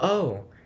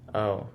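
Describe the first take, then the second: First: It sounds excited and thrilled. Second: It sounds disappointed and let down.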